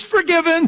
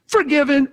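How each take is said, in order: First: High, loud, with laughter; joyful booming decree; laughing shout. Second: High, loud exclamation; victorious preacher cry; triumphant shout. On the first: Acted. God's declaration voiced, laughing. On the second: Real, not acted.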